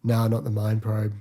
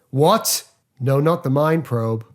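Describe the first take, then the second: First: Bored. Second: Shocked then flat. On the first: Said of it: "he gets bored halfway through saying it". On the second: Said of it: "one of my favourite line deliveries". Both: Retold or imitated.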